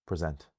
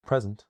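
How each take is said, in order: First: "present" stressed on the second syllable; light "pre", weight on SENT in "present". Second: "present" stressed on the first syllable, high and loud. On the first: Teacher contrasting emphasis, "present" with second-syllable stress. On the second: Teacher showing emphasis in a word, "present" with first-syllable stress. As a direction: hit PRES in "present", let the end fall. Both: Shown as a demonstration. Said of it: "it's the emphasis in a word".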